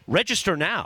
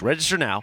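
First: It is said with more energy, with oomph. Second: It is said lazily, with low energy.

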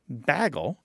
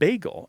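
First: The word has the northern regional vowel. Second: The word has the general, non-regional vowel. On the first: "many people throughout the northern United States, kind of the western Great Lakes ... say bagel" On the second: "instead of bagel"

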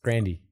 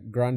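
First: The name ends with an 'ee' sound. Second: The name ends with an 'ay' sound. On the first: The speaker calls it right. "It's Grandy" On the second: The speaker calls it wrong. "Ariana Grande is said wrong too"

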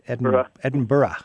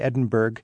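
First: The word ends without a hard G sound. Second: The word ends with a hard G sound. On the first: The speaker calls it right. "It's Edinburgh" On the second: The speaker calls it wrong. "I used to always say Edinburgh, but you don't want to pronounce that G on the end"

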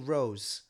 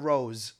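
First: The word ends with a soft S sound. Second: The word ends with a Z sound. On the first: The speaker calls it wrong. "With a soft S" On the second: The speaker calls it right. "a Rose with a Z"

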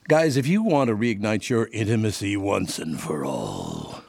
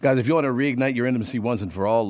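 First: It is said in a put-on character voice. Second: It is said in a normal speaking voice.

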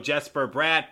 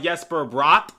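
First: The name begins with a hard J sound. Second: The name begins with a soft J sound. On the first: This is the American pronunciation. "some of you guys prefer the hard J" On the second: This is the European pronunciation. "I prefer the European pronunciation"

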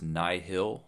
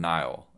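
First: The name is said as two separate syllables. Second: The name is said as one syllable. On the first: "like two very distinct syllables" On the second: "Like the Nile River"

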